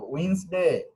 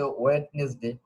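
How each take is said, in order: First: ওয়েডনেসডে said as wins-day, silent d; correct pronunciation. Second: ওয়েডনেসডে with the d sounded, wed-nes-day; mispronunciation demo. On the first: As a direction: say ওয়েডনেসডে in two syllables, "uins-de". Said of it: "উচ্চারণটা". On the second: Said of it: "উচ্চারণ সঠিক না". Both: Shown as a demonstration.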